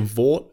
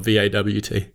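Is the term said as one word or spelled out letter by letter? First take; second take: one word; spelled out. First: It is said as a single word. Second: It is spelled out letter by letter. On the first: The speaker calls it right. "Is it acceptable for me to say Vought" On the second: The speaker calls it wrong. "use it as the acronym and say"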